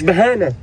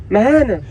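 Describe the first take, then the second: First: بهانة said with b, behana; wrong behana. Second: مهانة said with a clear m, mahana; correct mahana. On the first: Mocking his friend's slip, بهانة with a b. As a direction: say بهانة with a b sound, the mistake. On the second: Correcting his friend's word, مهانة with a clear m. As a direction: start مهانة with m, not b. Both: Shown as a demonstration. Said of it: "مش بهانة".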